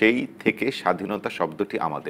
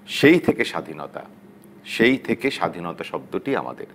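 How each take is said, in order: First: It flows without a pause after 'shadhinota'. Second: It has a pause after 'shadhinota'.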